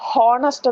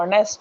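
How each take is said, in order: First: The word begins with an h sound. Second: The word begins directly with a vowel. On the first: The speaker calls it wrong. "എല്ലാവരും ഹോണസ്റ്റ് എന്നാണ് പറയുന്നത്. അങ്ങനെ പറയാൻ പാടില്ല" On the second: The speaker calls it right. "ഹെച്ച് silent... നമ്മൾ ഓണസ്റ്റ് എന്നാണ് വായിക്കുന്നത്"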